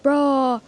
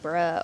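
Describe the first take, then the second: First: It sounds surprised. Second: It sounds disappointed.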